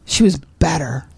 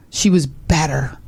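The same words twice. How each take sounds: First: WAS stressed again, quicker. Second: WAS leaned on, slow; stress on was. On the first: Repeating the point about her idol, stressing WAS. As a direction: press WAS in "She was better". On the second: Friend stressing WAS about her idol. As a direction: lean on WAS in "she was better". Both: Shown as a demonstration.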